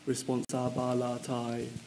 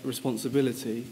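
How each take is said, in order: First: The word ends with an open 'eye' vowel. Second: The word ends with a plain 'ee' vowel. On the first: This lets the word carry on very high notes. "you'll have to actually say it as responsabilitai" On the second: This is the ordinary way to say the word. "you might say the word responsibility"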